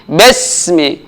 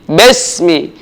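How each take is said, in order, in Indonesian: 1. Vokal pertama terdengar seperti 'e' pendek. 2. Vokal pertama terdengar seperti 'e' pendek.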